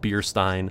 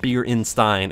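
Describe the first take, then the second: First: The word has no extra middle syllable. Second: The word has an extra middle syllable. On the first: The speaker calls it right. "It's just Bierstein" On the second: The speaker calls it wrong. "I know I'm saying it wrong. I'm saying it Bierenstein"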